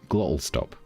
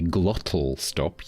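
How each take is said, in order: First: The t in the middle becomes a glottal stop. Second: The t in the middle is clearly pronounced. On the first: "If I was to relax and talk more naturally" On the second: "I'm deliberately doing it right now"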